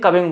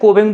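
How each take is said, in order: First: The first vowel sounds like 'u' in 'cup'. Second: The first vowel sounds like 'o' in 'go'. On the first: "कोई इसे कविंग बोलता है" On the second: "कोई कोई क्या बोलता है इसे कोविंग बोलता है"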